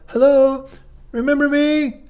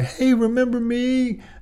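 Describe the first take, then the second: First: It is said harshly, like a cough. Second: It is said softly and gently.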